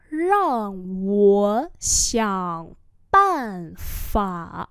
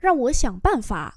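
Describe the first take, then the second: First: Rang wo xiang ban fa very drawn out; slow demonstration. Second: Said in the usual way. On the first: Shown as a demonstration. Teacher repeats a sentence for learners, very slowly. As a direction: hold each syllable of Rang wo xiang ban fa.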